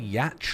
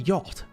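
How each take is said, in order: First: The word rhymes with catch. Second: The word does not rhyme with catch. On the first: The speaker calls it wrong. "I used to say yatch like catch when I was a kid" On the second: The speaker calls it right. "Do you mean yacht?"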